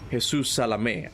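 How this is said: The name is said with a Spanish accent. The speaker calls it right. "I have to say it with a Spanish accent"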